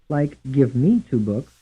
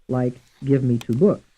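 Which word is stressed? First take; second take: me; books. First: The stress falls on the word me. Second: The stress falls on the word books. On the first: "Some stressed on the second syllable" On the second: "And some stressed on the fourth syllable"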